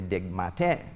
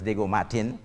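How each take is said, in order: First: The name is said with French pronunciation. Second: The name is said with English pronunciation. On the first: This is how the name was originally said. "originally Diego Martin in French" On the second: This is how the name is said today. "now pronounced as"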